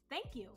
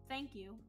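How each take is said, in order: First: It is said in a warm, grateful tone. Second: It is said in a plain, neutral tone. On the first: "you could tell I sounded thankful" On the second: "with the first version, very straightforward"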